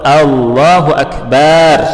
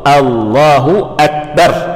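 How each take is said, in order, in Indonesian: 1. Vokal pada suku kata terakhir dipanjangkan. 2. Vokal pada suku kata terakhir dibaca pendek. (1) "contoh lahan yang salah, baknya panjang" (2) "mestinya apa? ... A-nya pendek, ba-nya pendek"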